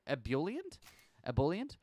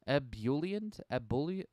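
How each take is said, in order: First: Ebullient said questioningly, rising; ebullient tried. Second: Ebullient tried as AB-yoo-lee-ent, rising; ebullient retried. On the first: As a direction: try out Ebullient as ih-BUL-yent. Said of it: "Cheerful and full of energy". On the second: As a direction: test Ebullient a different way. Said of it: "It's probably ebullient". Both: Shown as a demonstration.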